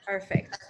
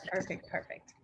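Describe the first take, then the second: First: Said in the usual way. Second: Perfect, perfect fading into a soft unvoiced murmur; trailing off. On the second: Real, not acted. Host trailing off to herself after the connection check, murmured. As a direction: let the repeated perfect drop away to almost nothing.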